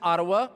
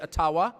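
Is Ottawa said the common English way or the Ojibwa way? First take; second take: common English; Ojibwa. First: It uses the common English pronunciation. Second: It uses the Ojibwa community's pronunciation.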